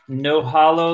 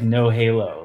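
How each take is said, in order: First: The name is said to rhyme with Mahalo. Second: The name is said to rhyme with Halo. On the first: "like Mahalo" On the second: "like like the game Halo"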